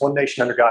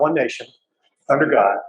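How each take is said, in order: First: It flows without a pause after nation. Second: It has a pause after nation. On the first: The speaker calls it right. "there is no comma. It's" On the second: The speaker calls it wrong. "It's not"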